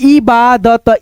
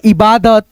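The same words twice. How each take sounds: First: इबादत slowly, part by part, इ-बा-दत; split into parts. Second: Said in the usual way. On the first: Shown as a demonstration. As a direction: sound out इबादत in separate drawn-out pieces. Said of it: "दो भागों में divide करके". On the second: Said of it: "उसके बाद से बोल देते हैं".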